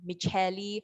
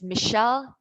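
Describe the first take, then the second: First: The name is said with three syllables. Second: The name is said with two syllables. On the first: The speaker calls it wrong. "not Micheli" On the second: The speaker calls it right. "There's only two syllables"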